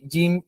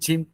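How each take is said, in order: First: The j is crisp with no escaping air. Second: The j is airy with breath escaping. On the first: The speaker calls it right. "Jangan sampai ada udara yang mengalir" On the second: The speaker calls it wrong. "kayak orang yang medok itu ... masih ada udara yang keluar"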